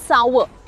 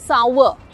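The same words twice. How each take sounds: The two takes are said the same way.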